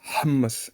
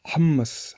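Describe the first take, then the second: Both takes have the same delivery.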